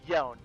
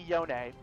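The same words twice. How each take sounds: First: The final E is silent. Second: The final E is sounded. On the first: The speaker calls it right. "Pronounce it like it is spelled. It is Yone" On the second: The speaker calls it wrong. "If it had an apostrophe, it'd be Yone"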